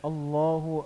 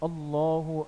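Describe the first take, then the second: The two takes are said the same way.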